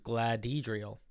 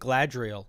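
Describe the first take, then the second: First: The name is said with a 'hed' syllable. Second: The name is said without a 'hed' syllable. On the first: The speaker calls it right. "it was" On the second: The speaker calls it wrong. "mispronouncing their username"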